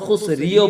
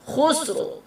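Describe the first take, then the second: First: The final r is followed by an i vowel. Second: The final r is lightly voiced with no vowel. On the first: The speaker calls it wrong. "খুসরিও বলতে পারবেন না" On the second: The speaker calls it right. "রার উপরে জজম লাগিয়ে দিতে হবে"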